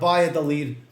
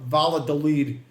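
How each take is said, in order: First: The double L sounds like a Y. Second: The double L sounds like an L. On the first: The speaker calls it right. "I'm saying right" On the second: The speaker calls it wrong. "Brooklyn guy doesn't know that the two L's are pronounced like a Y"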